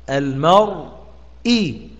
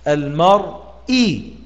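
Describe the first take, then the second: No difference in how they are said.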